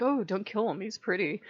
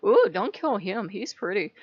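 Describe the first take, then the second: First: Lightly voiced smitten plea; a hint of a lovestruck queen, understated; smitten pirate queen. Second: Louder swoon on "Ooh", then lightly pleading; swooning pirate queen. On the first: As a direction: gently imitate a smitten plea. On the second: Retold or imitated. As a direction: play up the lovestruck queen a little. Same queen quote, hammed up more.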